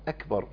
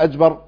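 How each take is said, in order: First: The middle consonant is a clear k sound. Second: The middle consonant is a voiced j sound. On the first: The speaker calls it right. "يبقى الكاف هنا مهم" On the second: The speaker calls it wrong. "فهو اعتاد ان هو يعمل قوة في القراءة، يقول ايه اجبر"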